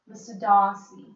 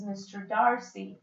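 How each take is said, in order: First: It is said with a British accent. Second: It is said with an American accent. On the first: "then you find the British" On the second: "That's how you would pronounce it in American language"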